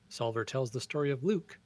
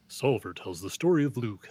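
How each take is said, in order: First: It is read in his normal voice. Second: It is read in a movie-announcer voice.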